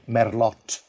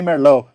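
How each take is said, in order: First: The final T is clearly pronounced. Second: The final T is silent. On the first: The speaker is a local. The speaker calls it right. "So you have to pronounce the T at the end" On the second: The speaker has never been there before. The speaker calls it wrong. "they will know you have never been there before"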